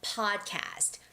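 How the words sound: It is said with English pronunciation. "But in English, it's podcast"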